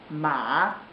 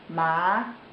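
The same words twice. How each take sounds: First: It is said with the third Mandarin tone. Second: It is said with the second Mandarin tone. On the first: "Third tone ma" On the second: "Second tone ma"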